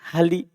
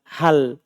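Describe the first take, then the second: First: The word ends in an added i vowel. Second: The word ends in a bare consonant. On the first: The speaker calls it wrong. "Jangan pernah dibaca" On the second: The speaker calls it right. "Antum baca selalu hal"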